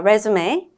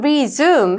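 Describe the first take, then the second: First: The stress is on the first syllable. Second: The stress is on the second syllable. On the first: It is the noun meaning a CV. "명사로 쓸 때는 re의 액센트가 있어서" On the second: It is the verb meaning to restart. "동사일 때는 resume 해서 zoom의 액센트가 있고요"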